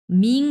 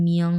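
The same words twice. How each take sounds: First: "মিং" with a plain i, no glide; wrong pronunciation demo. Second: "মিয়ং" as mi-ong, pitched lower; correct pronunciation. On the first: Teacher warning students off the error, "মিং" without an o glide. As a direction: say "মিং" as simple ming. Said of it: "মিং উচ্চারণ হবে না কিন্তু". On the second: Teacher correcting a common mistake, lower "মিয়ং" with an o glide. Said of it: "এটা হবে মিয়ং". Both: Shown as a demonstration.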